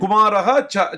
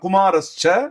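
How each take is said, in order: First: The two words are said separately, ending in -ha. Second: The two words are joined with an s sound. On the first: "நான் உங்களுக்கு பிரிச்சு சொல்றேன்" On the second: "சேர்ந்து சொல்லும்போது"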